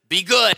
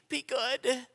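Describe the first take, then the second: First: It is said in a stern tone. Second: It is said in a pleading tone.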